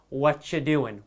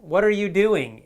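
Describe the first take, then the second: First: The words are run together and shortened. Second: Every word is said fully and separately. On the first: "Real spoken English often is" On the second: "the proper, you know, dictionary textbook way to say it"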